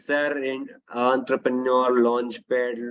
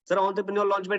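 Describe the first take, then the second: First: It is spoken very slowly, dragged out. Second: It is spoken very quickly, rushed. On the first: "ये slow motion नहीं करना" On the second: "ये भी नहीं करना"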